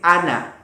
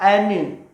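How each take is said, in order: First: The vowels are clear, short 'a' sounds. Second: The vowels lean toward an 'e' sound. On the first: The speaker calls it right. "Dibacanya pendek" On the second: The speaker calls it wrong. "dibaca dengan imala. Ini salah sekali ya"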